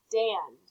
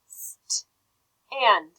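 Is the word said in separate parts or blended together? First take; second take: blended; separate parts. First: The word is said quickly as one unit. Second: The word is broken into two parts with a pause.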